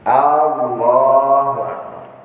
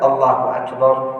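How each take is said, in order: First: The opening vowel is drawn out long. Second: The opening vowel is kept short. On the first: It asks whether God is great. The speaker calls it wrong. "Dia memanjangkan A" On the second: It states that God is great. The speaker calls it right. "Allahu Akbar hanya pendek. Allahnya yang panjang"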